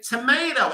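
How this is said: It is said with an American accent. The speaker calls it wrong. "why do you say tomato"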